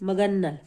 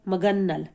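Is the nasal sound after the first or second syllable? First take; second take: second; second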